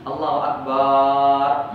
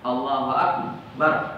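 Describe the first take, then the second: First: The last vowel of akbar is drawn out long. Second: The last vowel of akbar is kept short. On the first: The speaker calls it wrong. "nggak boleh dipanjangkan ba yang di akbar" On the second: The speaker calls it right.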